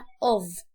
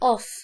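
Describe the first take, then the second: First: The word ends with a voiced v sound. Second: The word ends with a voiceless f sound. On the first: The speaker calls it right. "اقول عليها of" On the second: The speaker calls it wrong. "مش of"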